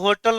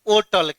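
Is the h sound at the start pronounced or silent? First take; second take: pronounced; silent. First: The word begins with an audible h sound. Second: The word begins without any h sound. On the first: The speaker calls it wrong. "होटल को होटल नहीं पढ़ा जाता" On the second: The speaker calls it right. "सही उच्चारण होता है होटल"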